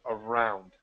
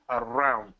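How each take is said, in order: First: The R is smooth and not trilled. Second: The R is rolled with a trill. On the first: The speaker calls it right. "we're not going to roll our R's" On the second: The speaker calls it wrong. "ellos suenan la R"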